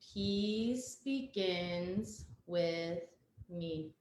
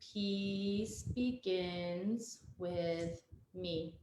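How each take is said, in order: No difference in how they are said.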